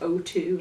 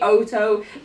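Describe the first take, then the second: First: It is said as a letter plus 'two'. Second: It is said as one word, 'Oto'. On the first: The speaker calls it wrong. "she said it was O two" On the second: The speaker calls it right. "it's actually Oto"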